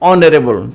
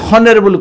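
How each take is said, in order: First: The word begins with a vowel, no h sound. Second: The word begins with an audible h sound. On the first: The speaker calls it right. "ଏଚ୍ ରୁ କ'ଣ ବାହାରିଲା? ଅ ବାହାରିଲା" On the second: The speaker calls it wrong. "ହନରେବୁଲ କହିଲେନି"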